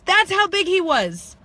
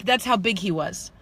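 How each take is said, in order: First: High, slow, stressed "That's how big he was"; emphatic repeat. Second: Said in the usual way. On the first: Shown as a demonstration. Telling viewers how huge the man was, emphatic high repeat.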